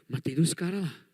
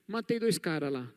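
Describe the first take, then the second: First: It is said panting, hurried and out of breath. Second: It is said offhandedly, in a relaxed casual tone. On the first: The man is agitated after the killing. "alguém aqui esbaforido falando" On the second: Killing two men is treated as nothing special. "simplesmente alguém chegando em casa assim, falando assim, Ih"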